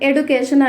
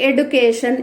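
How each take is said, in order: The two takes are said the same way.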